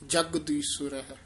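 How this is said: The word is said tightly and firmly. The speaker calls it right. "ਥੋੜਾ ਜਿਹਾ ਕੱਸ ਕੇ ਬੋਲਣਾ"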